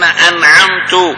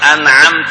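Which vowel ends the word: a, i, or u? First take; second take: u; a. First: The word ends with a short u vowel. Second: The word ends with a short a vowel. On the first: The reciter himself becomes the one who bestowed favor. The speaker calls it wrong. "مين صار المنعم؟ القارئ" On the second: God is addressed as the one who bestowed favor. The speaker calls it right. "لخاطب الله عز وجل، ماذا قال له؟"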